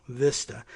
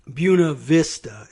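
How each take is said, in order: First: "Vista" said "Veesta", the Spanish way; softer "Vista" with an "ee" vowel. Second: "Buena Vista" said "Byoo-na Vis-ta"; Virginia Buena Vista. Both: Shown as a demonstration. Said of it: "instead of Vista".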